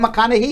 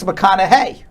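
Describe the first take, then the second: First: The name is said in a New York accent. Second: The name is said in a Texas accent. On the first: "I always call him McConaughey because it's my New York accent" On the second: "in Texas, it's McConaughey"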